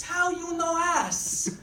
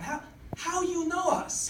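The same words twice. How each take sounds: First: "us" drawn out with the a of "cat"; slow, high accented "us", sounding like "ass". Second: "us" with an uh vowel, slower; US said clearly. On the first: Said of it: "so different from what I was thinking". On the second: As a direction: say "us" clearly in a lightly accented voice. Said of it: "what she was actually saying to me". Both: Acted.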